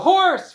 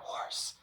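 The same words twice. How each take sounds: First: The word is said very loudly. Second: The word is said in a whisper. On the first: "they have to go horse really loud" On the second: "then they have to whisper it"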